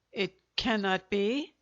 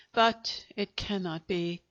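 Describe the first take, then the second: First: "It cannot be?" with a rising end on "be"; echoed question. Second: Said in the usual way. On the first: Acted. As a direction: echo "It cannot be?" as a stunned question with "be" lifted up. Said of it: "echoed Monsieur Pantin". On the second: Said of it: "he said".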